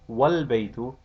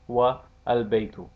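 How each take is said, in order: First: The A before the L is dropped. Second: The A before the L is pronounced. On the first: The speaker calls it right. "the a is dropped" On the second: The speaker calls it wrong.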